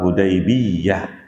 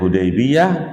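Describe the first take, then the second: First: The y sound is doubled and held longer. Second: The y sound is short and single.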